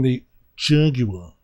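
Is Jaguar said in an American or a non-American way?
non-American. Jaguar is said in a non-American way. The speaker calls it wrong. "excuse me"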